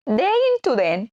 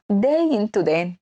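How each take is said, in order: First: Playful sting. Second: Said in the usual way. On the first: Shown as a demonstration. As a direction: lift the pitch on "داين تو دان". Spoken sting repeated higher.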